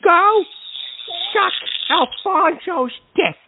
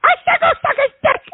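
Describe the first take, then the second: First: Spaced-out, emphatic words; slow, deliberate retort. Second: High, fast furious outburst; furious yell. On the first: Host answering a mocking caller, slow deliberate retort. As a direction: spell out the insult word by word. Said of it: "Can't even say it straight". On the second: Host repeating himself to a mocking caller, furious yell. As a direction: blurt it out at the top of the voice. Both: Real, not acted.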